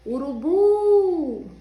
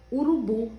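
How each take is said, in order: First: "Urubu" called out with a long, high, loud "bu"; stretched final syllable. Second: Said in the usual way. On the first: Shown as a demonstration. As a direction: hold the last vowel of "Urubu": "urubuuu". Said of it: "o bu ficou bem comprido". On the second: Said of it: "qual dos U's que é o mais forte?".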